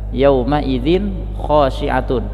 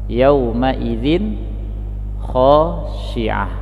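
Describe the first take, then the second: First: The last word ends with a 'tun' sound. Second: The last word ends with an 'h' sound. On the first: The reciter continues without stopping. "ada tanwin yang terdapat pada ta marbutoh" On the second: The reciter stops at this word. "ketika kita waqaf pada kata khasyi'atun, maka kita membacanya dengan ha"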